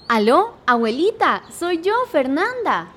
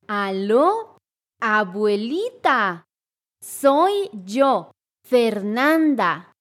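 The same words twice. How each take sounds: First: It is said at normal conversational speed. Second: It is said slowly and deliberately.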